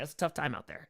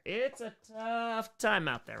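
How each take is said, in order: First: Said in the usual way. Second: Slow, higher line with a long "tough"; drawn-out TOUGH. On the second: Real, not acted. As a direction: stretch out "tough". Repeats it with drawn-out emphasis.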